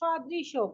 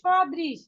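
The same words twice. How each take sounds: First: The word ends with an added 'o' vowel. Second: The word ends on a bare 'sh' consonant. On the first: The speaker calls it right. "যেহেতু আমাদের এই চিহ্নটা নেই" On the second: The speaker calls it wrong. "তালবস্যকে আমরা শুধুমাত্র তালবস্য হিসেবেই উচ্চারণ করব, এটা ওকার এর সাথে নিব না"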